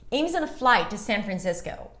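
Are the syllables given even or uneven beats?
uneven. Key words are stressed and small words squeezed. The speaker calls it right.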